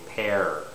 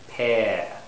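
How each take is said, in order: First: The r sound is pronounced at the end. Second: No r sound, with a longer vowel. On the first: "Canadian speaker and most Americans would say pear" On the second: "an English English speaker, for instance, would say pear... there's no R... making the vowel a little longer"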